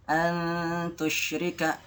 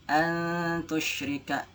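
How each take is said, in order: No difference in how they are said.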